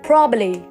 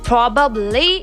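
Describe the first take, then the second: First: One b sound is dropped. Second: Every syllable is said in full. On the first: The speaker calls it right. "cut one B from probably" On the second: The speaker calls it wrong. "it's like a whole long word"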